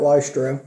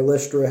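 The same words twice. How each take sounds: First: Lystra with a long i, LIE-struh; alternate pronunciation. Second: Lystra with a short i, LISS-truh; alternate pronunciation. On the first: Preacher naming the town for the congregation, Lystra said LIE-struh. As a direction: say Lystra with a first syllable like "lie". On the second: Preacher unsure of the town's name, Lystra said LISS-truh. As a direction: say Lystra with a first syllable like "list". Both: Real, not acted. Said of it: "however you say it".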